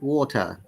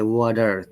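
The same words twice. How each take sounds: First: A crisp T, with no R sound at the end. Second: A D-like flapped T, with the R sounded. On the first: "British English" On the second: "they will say water. The T sound sound like D, and R is there"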